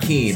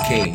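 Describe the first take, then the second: First: The vowel sounds like 'ee' as in 'seen'. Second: The vowel sounds like 'ay' as in 'cane'. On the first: The speaker calls it wrong. "It's not Keen" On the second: The speaker calls it right. "but it's Kane"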